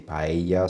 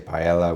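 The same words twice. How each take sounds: First: The middle consonant is a Y sound. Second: The middle consonant is an L sound. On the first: The speaker calls it right. "so it's like a Y instead of a double L" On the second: The speaker calls it wrong. "which is not the way that you pronounce it"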